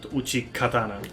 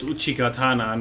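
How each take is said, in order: First: The middle consonant is a k sound. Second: The middle consonant is a g sound. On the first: The speaker calls it wrong. "not Uchikatana" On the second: The speaker calls it right. "it's called Uchigatana"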